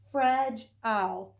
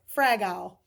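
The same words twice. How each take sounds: First: The g is a soft j sound. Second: The g is a hard g sound. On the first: The speaker calls it right. "Let's try soft G" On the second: The speaker calls it wrong. "We'll start with hard G"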